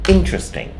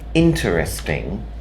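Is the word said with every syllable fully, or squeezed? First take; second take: squeezed; fully. First: The sounds are pushed together into fewer syllables. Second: Every syllable is said separately and fully. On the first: "we push the sounds together" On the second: "that is how it's spelt"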